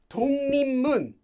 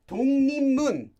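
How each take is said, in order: No difference in how they are said.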